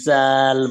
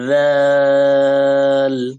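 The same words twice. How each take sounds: First: The first consonant is a hard, firm sound. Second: The first consonant is soft, tongue between teeth. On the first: The speaker calls it wrong. "এটাকে জাল বা জাল বলা যাবে না" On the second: The speaker calls it right. "সফট করে নরম করে বলতে হবে, জিভের আগা বের করে"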